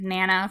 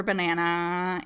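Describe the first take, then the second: First: "nana" with banana's first syllable dropped; child's pronunciation. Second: Said in the usual way. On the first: Shown as a demonstration. Linguist showing how children shorten banana, clipped-syllable "nana". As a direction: say "nana", leaving off the ba-. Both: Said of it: "children might say things like".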